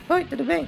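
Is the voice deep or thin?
thin. It is said in a thin, high voice.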